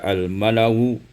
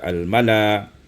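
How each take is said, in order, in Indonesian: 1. Kata ini berakhir dengan bunyi u samar. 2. Kata ini berakhir dengan bunyi a panjang. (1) "mentashilkan hamzah dengan rum, maka kita baca al-malau" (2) "menukarkan hamzah dengan alif sehingga kita baca al-mala"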